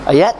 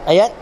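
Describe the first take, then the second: Both takes have the same delivery.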